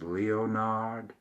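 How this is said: The name is said with a French pronunciation. "if it was French"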